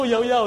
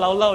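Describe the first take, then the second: First: Each syllable begins with a Y sound. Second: Each syllable begins with an L sound. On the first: The speaker calls it right. "You say, no, Yao Yao" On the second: The speaker calls it wrong. "initially I also thought Lao Lao"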